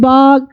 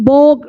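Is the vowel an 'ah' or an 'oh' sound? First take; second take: ah; oh. First: The vowel is an open 'ah' sound. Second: The vowel is a rounded 'oh' sound. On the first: The speaker calls it right. "इस ओ की उच्चारण बस आ होगी" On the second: The speaker calls it wrong. "बोग नहीं"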